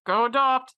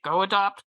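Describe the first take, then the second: First: "go adopt" said higher and louder, pressing; emphatic plea. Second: Said in the usual way. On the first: Real, not acted. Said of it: "repeats plea with emphasis". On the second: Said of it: "urging listeners to adopt".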